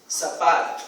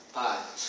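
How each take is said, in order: First: Said in the usual way. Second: Pato with sa dropped, low and soft; just pato, quietly; child's version. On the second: Shown as a demonstration. (pato, como a criança fala)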